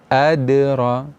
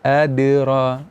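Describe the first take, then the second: No difference in how they are said.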